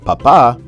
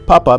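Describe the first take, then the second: First: The second syllable is high and prominent. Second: The first syllable is the prominent one. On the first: It means dad. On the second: It means potato.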